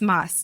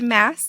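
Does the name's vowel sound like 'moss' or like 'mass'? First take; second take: moss; mass. First: The vowel sounds like the one in 'moss'. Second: The vowel sounds like the one in 'mass'. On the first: This is how the speaker had assumed it was said. "I always thought it was Moss too" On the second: This is how it was said on the podcast. "it was pronounced Mass during the podcast"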